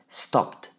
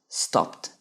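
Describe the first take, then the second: The two takes are said the same way.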